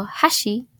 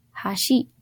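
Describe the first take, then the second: First: "hashi" pitched high on "ha", dropping on "shi"; high first syllable. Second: "hashi" starting low on "ha", rising on "shi"; low-pitch accent pattern. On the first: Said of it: "chopsticks with a high pitch on the first syllable". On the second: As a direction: let "hashi" climb onto its second syllable. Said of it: "bridge with the low pitch on the second syllable". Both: Shown as a demonstration.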